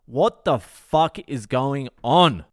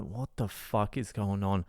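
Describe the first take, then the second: First: Slow, emphatic "What the fuck is going on", each word weighted; slow exasperated repeat, landing hard on "on"; exasperated emphasis. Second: Low, hushed aside; soft, low-pitched bewildered remark; quiet disbelief. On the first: Exasperated repeat of the same question. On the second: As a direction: say it under your breath, baffled. Baffled aside, then exasperated repeat. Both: Retold or imitated.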